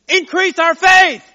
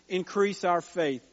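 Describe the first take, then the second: First: It is said in an exasperated, pleading tone. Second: It is said in a steady, earnest tone. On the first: The apostles feel overwhelmed by what they are asked to do. "But I almost hear the apostle saying" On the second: A sincere, devout request for more faith. "when I read it purposefully because that is kind of the tone that we normally read that verse with"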